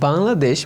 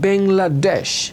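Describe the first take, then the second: First: It is said with a native Bengali pronunciation. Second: It is said with a British English pronunciation. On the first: "এটা রিয়েল উচ্চারণ" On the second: "ব্রিটিশরা বলে"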